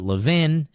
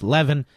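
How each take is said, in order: First: The name is said the Philadelphia way. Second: The name is said the New York way. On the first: "In Philadelphia, we pronounce it Levin" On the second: "In a lot of places, New York, it's Levin"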